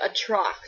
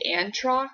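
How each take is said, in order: First: No n sound comes before the t. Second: An n sound comes before the t. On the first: The speaker calls it right. "There's no N" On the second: The speaker calls it wrong. "I was pronouncing the villain's name as the Antrox"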